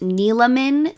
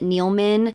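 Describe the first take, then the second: First: The name is said with three syllables. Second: The name is said with two syllables. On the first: The speaker calls it right. "three syllables. The E is not silent" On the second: The speaker calls it wrong. "it is incorrect according to her own mouth"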